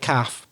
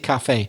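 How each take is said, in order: First: The word is said as one short syllable. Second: The word is said with two syllables. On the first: This is the south of England usage. "many people in the south of England say" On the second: This is the Irish and Scottish usage. "We would always say cafe"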